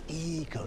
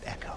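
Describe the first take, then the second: First: It is said as the name eco. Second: It is said like the word echo. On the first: The speaker calls it right. "it's Cruze Eco" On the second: The speaker calls it wrong. "not Echo"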